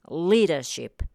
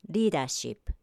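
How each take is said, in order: First: The first consonant is a longer, held L. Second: The first consonant is a quick tongue tap. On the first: "英語で発音するときは" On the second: "日本語の子音の言い方で発音すると"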